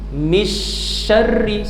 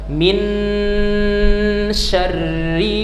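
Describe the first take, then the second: First: The n sound is left out entirely. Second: The n is pronounced clearly and openly. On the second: "tidak boleh kita baca terang-terangan nun ... tidak boleh"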